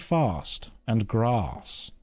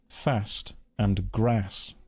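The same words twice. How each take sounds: First: The words are said in a very posh accent. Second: The words are said in his everyday accent. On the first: "That's how really posh people say" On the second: "Why do you pronounce words like fast and grass wrong?"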